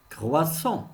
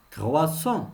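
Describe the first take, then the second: No difference in how they are said.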